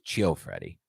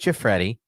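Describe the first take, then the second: First: The name begins with an added 'cho' sound. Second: The name begins with a short 'chee' sound. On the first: The speaker calls it wrong. "Yours was Chio Freddy. / You just added the cho" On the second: The speaker calls it right. "Mine was Chifreddy"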